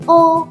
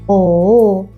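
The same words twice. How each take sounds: First: The pitch stays high and level. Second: The pitch dips down, then rises. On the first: "do re mi fa sol" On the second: "like shall we?"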